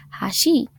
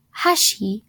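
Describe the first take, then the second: First: "hashi" with low "ha", rising on "shi"; low pitch accent. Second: "hashi" with high "ha", falling to "shi"; high pitch accent. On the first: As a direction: begin "hashi" low and lift the second syllable. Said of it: "with the low pitch means bridge". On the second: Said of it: "with the high pitch". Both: Shown as a demonstration.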